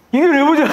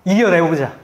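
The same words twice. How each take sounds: First: 이겨내보자 shouted high and loud; rally them with a rousing cry. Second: Said in the usual way. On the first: Shown as a demonstration. Pastor rallying his friend to overcome, rousing shout. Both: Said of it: "우리 같이 한번".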